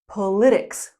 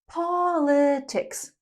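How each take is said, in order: First: The stress is on the second syllable. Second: The stress is on the first syllable. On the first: The speaker calls it wrong. "not politics" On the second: The speaker calls it right. "The topic is politics. Politics"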